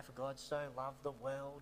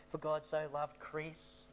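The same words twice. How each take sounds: First: Said in the usual way. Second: "Chris" set out slowly and clearly; slow the verse down to land on "Chris"; made real clear. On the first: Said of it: "made it real clear". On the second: Retold or imitated. Sunday school teacher putting the boy's name in, "Chris" said slowly and clearly. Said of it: "my Sunday school teacher made it real clear".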